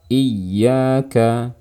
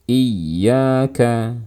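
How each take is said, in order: The two takes are said the same way.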